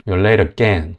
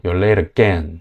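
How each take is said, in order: First: Late punched, rest weak; stress on late. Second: Late stressed, falling end; stressed late again. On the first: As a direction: hit the word late hard. (late에 강세를 세게) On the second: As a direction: lean on late and let it fall. (late 강조해서 다시) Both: Shown as a demonstration. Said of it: "강세만 이렇게 음절을 좀 강조해".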